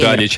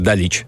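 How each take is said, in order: First: The stress is on the first syllable. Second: The stress is on the last syllable. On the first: "в балканских странах ударение на первый слог. ... Вот, Далич" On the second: "А ты, наверное, на французском Далич"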